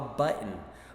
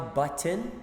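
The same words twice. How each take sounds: First: The t sound in the middle is not heard. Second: The t sound in the middle is clearly pronounced. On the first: This is how people say it in everyday speech. "É porque a gente não fala no dia a dia" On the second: This is the careful form heard when learning pronunciation. "na escola, quando você está aprendendo a pronúncia"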